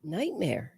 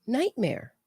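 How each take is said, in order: First: Said in the usual way. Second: Nightmare said higher, with a falling tune; stress on Nightmare. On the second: Real, not acted. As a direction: lift Nightmare up, then let it fall.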